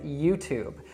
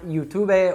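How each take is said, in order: First: The word ends on the b sound. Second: The word ends with an extra vowel sound. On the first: The speaker calls it right. "the correct pronunciation is YouTube" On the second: The speaker calls it wrong. "not YouTube or something else like that"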